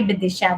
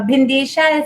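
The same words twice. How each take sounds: First: "Bidisha" said with care, a plain d and no n; corrected name. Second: "Bhindesha" with an n sound before the d; misread name. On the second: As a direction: mispronounce it as "Bhindesha", with an extra n. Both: Real, not acted. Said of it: "oh, sorry".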